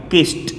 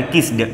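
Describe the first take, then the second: First: किस्ट ending in a crisp unvoiced t; कiस्ट, final t sound; kissed with a t. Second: किस्ड ending in a voiced d, the wrong way; wrong kissed with a d. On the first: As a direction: say किस्ट with a clean t at the end. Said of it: "ट करिएगा". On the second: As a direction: demo the mistake: किस्ड with a d. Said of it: "ना, गलत". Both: Shown as a demonstration.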